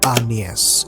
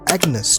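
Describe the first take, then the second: First: The name gets its old period pronunciation. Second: The name gets its modern pronunciation. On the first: This is how the name was said back then. "rightly pronounced Agnes with time" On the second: This is how the name is said now. "it is Agnes today"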